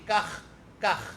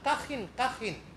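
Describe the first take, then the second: First: Each word ends on the kh sound, no vowel. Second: Each word ends with an added -in sound. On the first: "dengan menjadikan kha-nya sukun" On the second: "harokatnya kasrah dan ditanwinkan"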